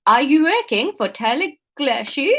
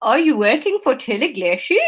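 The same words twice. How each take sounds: First: Second, careful attempt at a Dutch accent; coached Dutch accent. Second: Tentative attempt at a Dutch accent; bad Dutch accent. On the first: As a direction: try the Dutch accent with deliberate care. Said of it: "Sat the th as a duh". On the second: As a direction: Dutch accent, about to crack up. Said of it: "integral to my Dutch accent".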